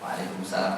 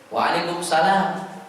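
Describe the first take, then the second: First: The reply is said quietly. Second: The reply is said loudly.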